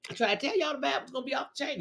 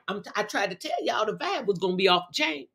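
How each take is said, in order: First: Fast, softer rattled-off repeat; quick and hushed, tossing the line away; rushed repeat. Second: Said in the usual way. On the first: Real, not acted. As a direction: rattle it off quickly under the breath. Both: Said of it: "repeats the line".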